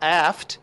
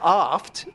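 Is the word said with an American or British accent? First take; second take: American; British. First: It is said with an American accent. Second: It is said with a British accent.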